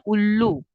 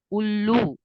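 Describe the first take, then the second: First: Said in the usual way. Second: उल्लू with a pressed, lengthened ऊ; long u stress. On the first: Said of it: "हम बोलते हैं". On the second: Shown as a demonstration. Teacher showing students the long vowel, pressed and held. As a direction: lean on the ऊ in उल्लू and hold it. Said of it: "लू को मैंने एकदम ऊ ऐसे उल्लू".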